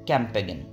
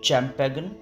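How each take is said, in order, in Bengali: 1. শব্দটি k উচ্চারণ দিয়ে শুরু হয়। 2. শব্দটি ch উচ্চারণ দিয়ে শুরু হয়। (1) "আপনি হয়তো ভাবছেন" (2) "নিশ্চয়ই আপনি ভাবছেন শব্দটির উচ্চারণ হবে"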